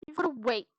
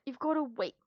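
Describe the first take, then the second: First: Said in the usual way. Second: Whispered "You've gotta wait" with no voice. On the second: Real, not acted. Repeating the order to her pet in a whisper. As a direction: hush it to the pet.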